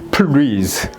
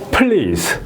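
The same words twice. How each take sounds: First: The word is split with an added vowel and misplaced stress. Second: The word is said as one smooth syllable. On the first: The speaker calls it wrong. "이렇게 하면 안 된다는 거죠. ... 액센트 위치가 틀린 거예요" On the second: The speaker calls it right. "제가 이제 사운드 실러블로 나눈 건 이렇게 나눈 거예요. 그러면 이걸 이제 소리 내면 please잖아요"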